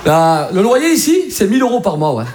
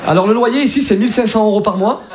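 First: Name the rent like a Marseille local; casual Marseille accent, stretched opening; Marseille landlord. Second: Lightly voiced polite Parisian agent; a hint of formal Parisian landlord. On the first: Acted. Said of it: "un mec à Marseille te loue un dix mètres carrés". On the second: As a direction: quote the terms with Parisian politeness. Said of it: "Ça, c'est ça à Paris".

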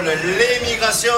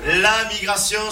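First: "L'émigration" said slowly, each syllable spelled out; careful l'émigration. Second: Said in the usual way. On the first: Shown as a demonstration. Comic contrasting "L'émigration" with "La migration", slowly. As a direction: drag out "L'émigration" to set it against "La migration".

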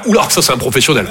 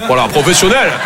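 First: Lower, admiring murmur; impressed onlookers. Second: Said in the usual way. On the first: Retold or imitated. Customers admiring the paint-covered guy, low impressed voice. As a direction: sound impressed at the pro. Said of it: "Tout le monde va faire".

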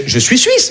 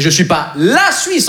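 First: Said in the usual way. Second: "la" drawn out and set apart; stress on "la". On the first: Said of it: "mais je suis pas la Suisse". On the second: Acted. Swiss man telling a guy he isn't all Switzerland, stress on "la". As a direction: lean slowly on the word "la".

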